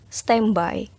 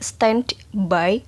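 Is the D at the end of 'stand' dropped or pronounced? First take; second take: dropped; pronounced. First: The D at the end of 'stand' is dropped. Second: The D at the end of 'stand' is pronounced. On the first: The speaker calls it right. "langsung melebur ke B-nya" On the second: The speaker calls it wrong. "pengucapannya tidak stand by"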